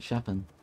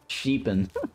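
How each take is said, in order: First: The first vowel is short, as in 'shep'. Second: The first vowel is long, as in 'sheep'. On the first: The speaker calls it right. "It's Sheppen, right?" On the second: The speaker calls it wrong. "Sheepan sounds awful"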